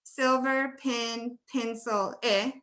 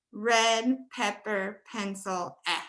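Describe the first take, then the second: First: "Silver pin, pencil, eh" slowly, with an i vowel in "pencil"; husband's version. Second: "Red pepper, pencil, eh" slowly, with an open e in "pencil"; her version. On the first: Retold or imitated. Teacher contrasting her husband's "pencil", slowly. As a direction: say "pencil" like "pincil", drawn out. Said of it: "He'd be saying". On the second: Shown as a demonstration. Teacher contrasting her own "pencil" with her husband's, slowly. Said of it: "And I would be saying".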